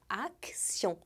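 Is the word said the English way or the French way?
French. It is said with a French pronunciation. "Em francês é um som de A bem aberto"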